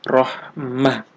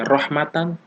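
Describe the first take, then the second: First: The word ends with an h sound. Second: The word ends with an n sound. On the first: The speaker calls it right. "tapi harus dibaca rohmah" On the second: The speaker calls it wrong. "tidak boleh dibaca rohmatan"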